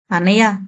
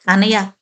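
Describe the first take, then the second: First: A light, breaking cry of the name; bursting into tears. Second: A sharp call that catches hoarse in the throat; mean to scold, but the voice cracks hoarse; sharp cry turned hoarse. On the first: Sister at her drunk brother's side, bursting into mild tears. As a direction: let the name break into a sob. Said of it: "బావురుమంది Sujatha". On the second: Sister confronting her drunk brother, sharp call going hoarse. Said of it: "తీవ్రంగా అనబోయిన సుజాత గొంతు బొంగురుపోయింది". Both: A narrator's reading.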